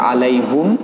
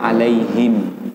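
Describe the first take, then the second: First: The last vowel is u. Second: The last vowel is i. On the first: This is the reading in the seven readings. "Di sab'ah dia baca alaihum" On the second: This is the reading as an independent imam. "imam tersendiri dia baca alaihim"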